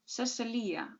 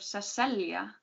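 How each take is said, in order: First: Cecilia as seh-seh-LEE-uh, four syllables; name with an I. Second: Cecilia as seh-SELL-ya, three syllables; name with a J. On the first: Narrator contrasts two spellings, Cecilia as seh-seh-LEE-uh. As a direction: say Cecilia with a full ee-uh ending. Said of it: "Cecilia with an I instead". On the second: Narrator gives the old spelling, Cecilia as seh-SELL-ya. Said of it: "with a J". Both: A narrator's reading.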